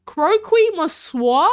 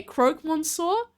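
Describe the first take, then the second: First: "Croquis" said as kro-kee with an extra syllable, questioning rise; misreading croque. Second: "croque" as one syllable, krok, then "monsieur" with a rise; corrected croque. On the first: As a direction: read "Croquis Monsieur" as kro-kee mon-syeur, unsure. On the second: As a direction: say "croque monsieur" as krok mon-syeur, fixing it. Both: Real, not acted. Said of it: "Pronounce croque".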